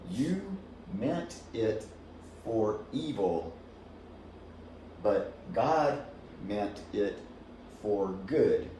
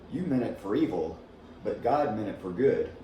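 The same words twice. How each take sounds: First: Each word is said clearly and separately. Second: The words run together with reduced sounds. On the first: "here's how it goes" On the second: "we don't say it so clear like that. We say it more like this"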